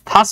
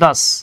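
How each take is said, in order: First: The word begins with an aspirated t-h sound. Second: The word begins with a voiced d-like sound. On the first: The speaker calls it wrong. "থাস বললেন না কিন্তু" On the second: The speaker calls it right. "এভাবে ইংরেজি হচ্ছে দাস"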